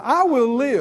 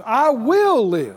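First: Said in the usual way. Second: Slow, louder "I will live"; emphatic declaration. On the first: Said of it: "say that right now". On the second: Shown as a demonstration. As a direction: drag out "I will live" with weight. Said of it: "say it with some emphasis".

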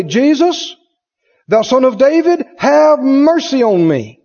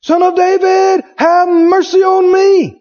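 First: Crying out. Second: Higher, louder and slower, pleading; a blind beggar calling to Jesus over the crowd, louder and higher; crying out louder. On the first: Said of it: "he began to cry out and say". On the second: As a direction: cry out harder for mercy, drawn out. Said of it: "he cried the more a great deal". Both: Retold or imitated.

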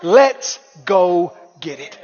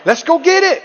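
First: Drawn-out low urging. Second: Higher and louder, pushing hard; escalating rally cry; rising shout. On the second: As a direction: build it to a shout. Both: Shown as a demonstration.

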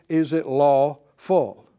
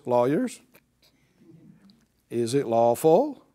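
First: Said in the usual way. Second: Pointed question tune, rising on lawful; rising challenge. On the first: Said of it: "So he asked the question". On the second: Shown as a demonstration. Jesus puts it to the lawyers with a rising challenge. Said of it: "You might say it like this".

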